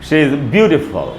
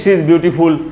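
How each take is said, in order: First: The last syllable has a reduced schwa vowel. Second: The last syllable has a full 'ful' vowel. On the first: The speaker calls it right. "आपको बोलना चाहिए" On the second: The speaker calls it wrong. "न कि"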